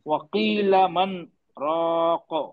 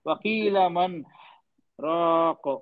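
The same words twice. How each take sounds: First: A short silent stop without breathing comes after 'man'. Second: An audible breath is taken after 'man'. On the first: The speaker calls it right. "थोड़ा दो हरकत के बराबर सांस को रोक के रखना है।" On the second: The speaker calls it wrong. "सांस ले ली मैंने, ये गलत हो गया।"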